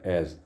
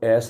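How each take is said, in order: First: The word ends with a buzzing z sound. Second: The word ends with a hissing s sound. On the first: The speaker calls it right. "इसको एज पढ़ा जाए" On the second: The speaker calls it wrong. "इसको एस नहीं पढ़ेंगे"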